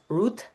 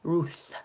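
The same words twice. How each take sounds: First: The name ends in a plain T sound. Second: The name ends in a TH sound. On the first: The speaker calls it right. "in Hebrew, it's Ruth" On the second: The speaker calls it wrong. "not Ruth. There's no T H sound"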